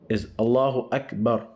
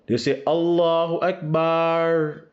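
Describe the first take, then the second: First: The vowel in Akbar is kept short. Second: The vowel in Akbar is stretched long. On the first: The speaker calls it right. "the word Akbar, it don't have elongation" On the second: The speaker calls it wrong. "a common mistake... That's not even correct"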